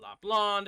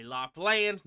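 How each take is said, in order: First: "Lapland" ending in an open "lahnd"; Lapland as "lond". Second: "Lapland" ending like the English word land; technically correct Lapland. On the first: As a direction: say the end of "Lapland" to rhyme with "pond". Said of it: "not Lapland". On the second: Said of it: "it's technically Lapland". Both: Shown as a demonstration.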